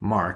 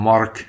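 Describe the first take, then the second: First: The name is said with an American accent. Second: The name is said with a Russian accent.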